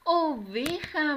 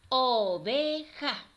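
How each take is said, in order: First: "Oveja" drawn out, high and loud; joined-up, triumphant "Oveja"; cheering the answer. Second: Clap-out pace, "Oveja" broken in three beats; syllable by syllable. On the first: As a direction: celebrate the right answer with the children. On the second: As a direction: split slowly into "O-ve-ja", each part stressed. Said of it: "vamos a separar cada una". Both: Shown as a demonstration.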